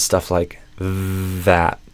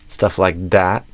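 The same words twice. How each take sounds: First: The word that begins with a soft th sound. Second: The word that begins with a d-like sound. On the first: The speaker calls it right. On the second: The speaker calls it wrong.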